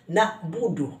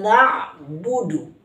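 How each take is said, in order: First: The middle uses a plain vowel, no throat sound. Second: The middle has a throaty ain sound. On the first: The speaker calls it wrong. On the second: The speaker calls it right.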